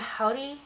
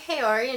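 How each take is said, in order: First: The word is said with a Japanese-style pronunciation. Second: The word is said with an English-style pronunciation. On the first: The speaker calls it right. "she's like, mmm, howdy?" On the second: The speaker calls it wrong. "I was pronouncing it wrong"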